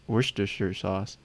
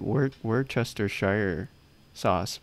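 First: The name is said in a shortened form. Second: Each written syllable of the name is pronounced. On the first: This is how people usually say it. "but I always hear" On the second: This is how the written word looks. "It's spelled like"

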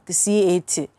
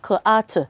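First: Each letter is spoken by its alphabet name. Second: Each letter is spoken as its sound. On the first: The speaker calls it wrong. "they go like C-A-T, cut, which C-A-T is not cut" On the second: The speaker calls it right. "k-A-T is cut"

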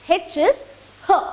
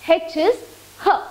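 No difference in how they are said.

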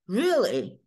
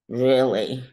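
First: The word sounds surprised. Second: The word sounds like a clarifying question. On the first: The speaker did not expect this. "So I'm kind of surprised" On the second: The speaker wants confirmation of what was said. "Like asking for clarification"

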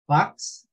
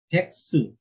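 First: It ends on the s sound, with no vowel. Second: It ends with an added u vowel after s.

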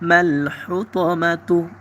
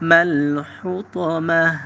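First: The word ends with a voiced 'tu' syllable. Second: The word ends with a silent 'h' sound.

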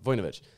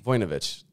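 First: The o vowel is said lightly and reduced. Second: The o vowel is said strongly and fully. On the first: The speaker calls it right. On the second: The speaker calls it wrong.

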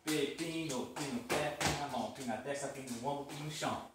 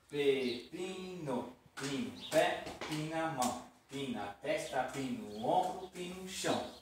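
First: It is said fast. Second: It is said slowly.

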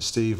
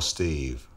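First: The vowel is short and plain. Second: The vowel is drawn out longer.

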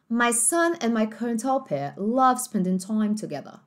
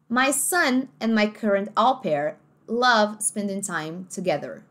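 First: The final r of together is dropped. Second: The final r of together is pronounced.

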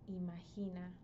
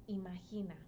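The two takes are said the same way.

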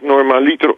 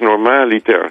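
First: The stress falls on the third syllable. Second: The stress falls on the second syllable. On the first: The speaker calls it wrong. "het heeft niets met een liter te maken" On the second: The speaker calls it right. "Het is normaliter"

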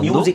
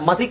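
First: The first syllable is a 'myoo' sound. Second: The first syllable is a plain 'ma' sound. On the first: The speaker calls it right. "ಮ್ಯೂಸಿಕ್ ಅಂತಾನೆ ಬರುತ್ತೆ" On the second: The speaker calls it wrong. "ಮಸಿಕ್ ಇದು ಬರಲ್ಲ"

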